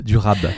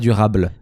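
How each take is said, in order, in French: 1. Le mot finit par un simple son b. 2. Le mot finit par un son -ble. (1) "c'est du rap, du rab" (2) "C'est pas du rable"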